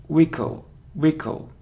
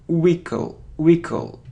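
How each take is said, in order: Both takes have the same delivery.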